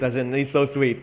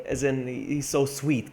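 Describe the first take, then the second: First: Said in the usual way. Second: Slow, drawn-out he's so sweet; Maltese way of saying it. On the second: Shown as a demonstration. Explaining the Maltese sense, slow drawn-out so sweet. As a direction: stretch out so sweet slowly, Maltese style. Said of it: "but we say it like".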